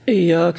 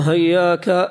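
First: The word starts with a glottal 'i' sound. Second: The word starts with an 'h' sound. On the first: This is the reading of the seven and the majority. "قرأ السبعة والجمهور بتشديد الياء من إياك" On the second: This is a reading by some readers. "فالهاء بدل الهمزة"

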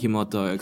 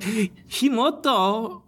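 First: It is said flatly, with no exclamation. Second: It is said excitedly, like an exclamation.

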